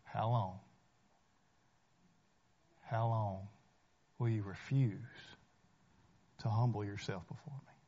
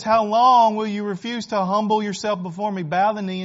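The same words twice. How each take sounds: First: A gentle, searching question from the Lord; hushed solemn plea; matchless voice of Jesus. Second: Raised voice, pressing hard on how long; forceful preacher's call; loud pleading challenge. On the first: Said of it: "with his matchless voice". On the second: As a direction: demand an answer from the crowd. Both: Acted.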